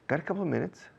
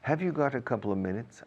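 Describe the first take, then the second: First: It is quick and the opening words are dropped. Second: It is said in full with every word present.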